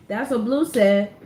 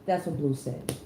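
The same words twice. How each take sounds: First: Louder and slower, "Blue" hit hard; repeated for emphasis. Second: Said in the usual way. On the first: Shown as a demonstration. Reader repeats Blue's words to viewers, emphatic. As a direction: lean on "Blue", drag it out.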